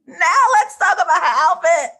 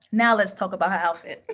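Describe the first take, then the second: First: Higher, much louder emotional shout; gushing, almost crying with excitement; overwhelmed outburst. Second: Laughing. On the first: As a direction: burst out as if close to tears. Second take, overwhelmed. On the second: First take, laughing. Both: Real, not acted.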